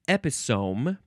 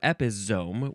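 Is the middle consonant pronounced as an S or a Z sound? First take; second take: S sound; Z sound. First: The middle consonant is an S sound. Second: The middle consonant is a Z sound.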